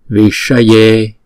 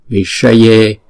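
Both takes have the same delivery.

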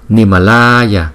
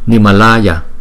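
First: The long A vowel is stretched out very long. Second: The long A vowel is held only moderately. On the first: The speaker calls it wrong. "chúng ta đọc vậy thì nó hơi quá" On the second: The speaker calls it right. "chỉ nhanh gấp đôi cái chữ A bình thường thôi, chứ không có kéo dài dữ"

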